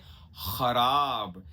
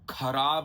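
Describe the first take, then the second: First: It starts with a raspy throat fricative sound. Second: It starts with a plain aspirated k sound. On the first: The speaker calls it right. "ख नुक्ता लगा के" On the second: The speaker calls it wrong. "खराब नहीं"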